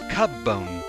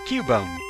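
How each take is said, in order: First: The first syllable sounds like the word cub. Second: The first syllable does not sound like cub. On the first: The speaker calls it wrong. "maybe it was Cubbone, like a cub" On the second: The speaker calls it right. "it is pronounced Cubone"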